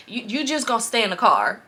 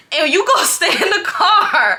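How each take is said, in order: First: Said in the usual way. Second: High, loud mock command breaking into laughter; hammed-up yelled order. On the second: Boyfriend ordering her to wait outside, mock yelling. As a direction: yell the order in exaggerated imitation.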